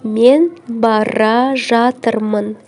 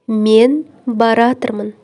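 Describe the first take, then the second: First: All syllables of both verbs are fully pronounced. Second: The two verbs merge into one shortened word.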